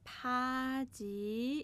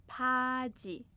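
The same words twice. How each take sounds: First: پاجی stretched very slowly with a long rising ending; drawn-out model word. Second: Said in the usual way. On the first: Shown as a demonstration. Teacher stretches a Korean word so students catch it.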